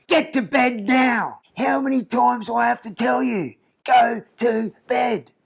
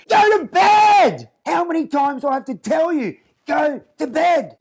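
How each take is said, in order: First: Put-on high, slow, bossy little girl scolding; a small child copying a strict mum, higher and slow; toddler playing stern parent. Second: Put-on a little girl yelling the order at the top of her lungs; toddler screaming at teddy. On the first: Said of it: "she's like". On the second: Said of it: "and then screams".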